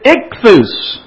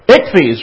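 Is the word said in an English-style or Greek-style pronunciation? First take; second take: Greek; English. First: It is said with a Greek-style pronunciation. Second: It is said with an English-style pronunciation. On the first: The speaker calls it right. "the Greek word for fish is ichthus" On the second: The speaker calls it wrong. "if you pronounce it the way it would look in English"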